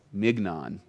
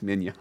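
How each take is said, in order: First: Mignon said as spelled, with a hard g, MIG-non. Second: Mignon said the French way, MEEN-yon, no g; proper French mignon. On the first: To the church, sounding out mignon as spelled. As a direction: mignon read the way it looks on paper. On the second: To the church, giving the proper French mignon. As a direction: mignon with the soft French ny sound. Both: Shown as a demonstration. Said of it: "It's spelled mignon, but it's mignon".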